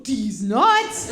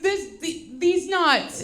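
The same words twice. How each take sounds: First: Confident punchline, louder; joke done right. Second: Put-on halting, stumbling kid punchline; botched joke delivery. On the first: Shown as a demonstration. Mom showing son the punchline, loud and sure. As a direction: land it cleanly and punchy. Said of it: "You go like this". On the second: Son botching a prank on mom, halting delivery. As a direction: imitate a boy fumbling the punchline. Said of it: "That's not how you do that".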